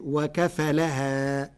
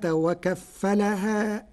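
First: وكفلها with the فاء unstressed and not doubled, very slow; light fa. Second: Said in the usual way. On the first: Shown as a demonstration. Teacher demonstrating Warsh reading, single fa in وكفلها. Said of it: "فتصير". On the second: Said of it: "بتخفيف الفاء".

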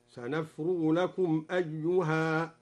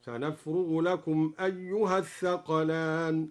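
First: Slow recitation halting on "أيها" with a long final aa; stop on the alif. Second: Slow recitation linking "أيها" straight into "الثقلان", short a; joined reading. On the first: Teacher showing al-Duri's pause, "أيها" ending in long aa. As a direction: stop after "أيها", alif fully sounded. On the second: Teacher showing the continuous reading, "أيها" joined to "الثقلان". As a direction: run "أيها الثقلان" together without stopping. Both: Shown as a demonstration. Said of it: "ووقف على قوله تعالى".

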